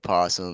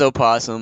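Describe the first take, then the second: First: It starts directly with the p sound. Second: It starts with an extra vowel sound. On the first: "some say the O is silent, so you can just say possum" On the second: "It is opossum"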